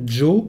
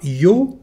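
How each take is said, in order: First: The word starts with a j sound. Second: The word starts with a y sound. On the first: "comme si euh, en fait il s'agissait d'un J anglais à la place de l'Y" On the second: "on dira yo dans les deux cas"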